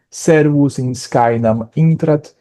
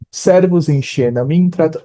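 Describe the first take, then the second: First: It uses the classical Latin pronunciation. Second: It uses a non-classical Latin pronunciation.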